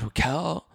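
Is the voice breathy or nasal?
breathy. It is said in a breathy voice.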